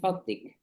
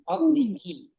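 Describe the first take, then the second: First: The word ends on a consonant, vowel dropped. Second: The word ends with a final vowel sound. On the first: The shortened form used when pausing. "nggak usah fadliki lagi, lebih mudah" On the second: The full form addressing a woman. "ki ya, bukannya fadlika"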